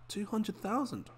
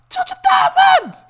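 First: The number is said flatly, without emphasis. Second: The number is said loudly, with strong emphasis. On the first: The amount seems ordinary. The speaker calls it wrong. "if I just say like 200,000, it doesn't sound right" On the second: The amount is impressively large. The speaker calls it right. "I got to say it like that"

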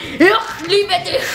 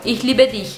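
First: It is said in a harsh, exaggerated way. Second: It is said in a plain, normal way. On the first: The speaker calls it wrong. "Eu não falei" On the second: The speaker calls it right. "agora eu vou falar normal"

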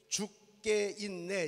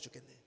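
First: It is said slowly, syllable by syllable. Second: It is said fast, run together.

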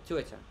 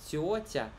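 First: Both t sounds are plain, without hissing. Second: Both t sounds are hissed like ts. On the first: This is how Russians say it. The speaker calls it right. "Русские говорят "тётя"" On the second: This is how Belarusians say it. The speaker calls it wrong. "белорусы говорят его "тётя", как два ц"

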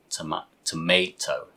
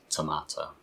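First: The middle vowel sounds like 'ay', in an American accent. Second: The middle vowel sounds like 'ah', in a British accent. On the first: This is the American English pronunciation. "In American English" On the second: This is the British English pronunciation. "So in British English, we say tomato"

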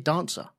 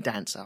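First: The first vowel is long, like in father. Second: The first vowel is short, like in cat. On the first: The speaker calls it right. "I say dancer" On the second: The speaker calls it wrong. "I don't say dancer"

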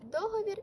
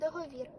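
First: The stress is on the first syllable. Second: The stress is on the last syllable. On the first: "це слово має два наголоси – на перший та на останній склади" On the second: "це слово має два наголоси – на перший та на останній склади"

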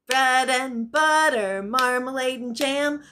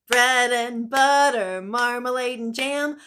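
No difference in how they are said.

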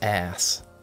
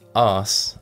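First: The vowel is short and flat, like in cat. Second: The vowel is long and open, like in father. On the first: "and not ass" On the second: "I have what's called a Middle English accent, which means I pronounce it arse"

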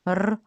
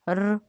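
The two takes are said the same way.

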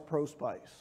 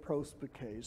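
First: The ending sounds like the English word spice. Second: The ending does not sound like English spice. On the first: The speaker calls it wrong. "it looked like on the board it said respice, ad spice, pro spice" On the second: The speaker calls it right. "he said you pronounce it respice, adspice, prospice"

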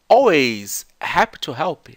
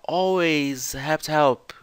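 First: Each word is said clearly and separately. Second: The words run together as one chunk. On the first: "a gente fica esperando que a pessoa vá falar assim" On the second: "Só que ela faz um chunk gigante"

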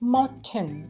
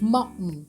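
First: The t sound is fully released. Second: The t sound is held back in the throat. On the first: This is the British way of saying it. "จะพูดตามตัวสะกดนั่นแหละ" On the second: This is the American way of saying it. "hold กลั้นเอาไว้แบบนี้ค่ะ"

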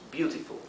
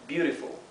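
First: It is said with a British accent. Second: It is said with an American accent.

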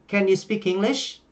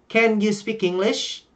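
Both takes have the same delivery.

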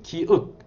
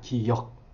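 First: The second syllable is said as 'eok'. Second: The second syllable is said as 'yeok'. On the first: The speaker calls it wrong. "기억이라고 하는 어린이들이 있어요. 기억. 아니죠" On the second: The speaker calls it right. "기억이 아니라 기역입니다"

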